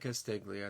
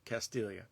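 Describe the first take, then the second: First: The g is sounded as a hard g. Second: The g is silent, giving a ly sound. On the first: The speaker calls it wrong. "don't say Castiglia. It's not the right way" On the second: The speaker calls it right. "That's how you say it"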